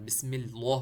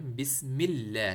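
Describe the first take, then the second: First: Heavy, rounded "lloh" in اللہ; wrong thick lam. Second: Slow demo, light thin L in اللہ; thin, light lam in اللہ, spoken slowly. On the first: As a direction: say اللہ with a dark, thick L and an O vowel. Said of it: "جو کہ غلط ہے". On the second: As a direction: say اللہ with a thin "lleh", drawn out. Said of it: "لام کو چھوٹا پڑھنا ہے". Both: Shown as a demonstration.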